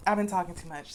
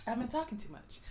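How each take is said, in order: First: Said in the usual way. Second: Quiet raspy aside after coughing; hoarse mutter. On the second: Real, not acted. To viewers after a coughing fit, a quiet hoarse aside. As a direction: clear the throat and say it softly.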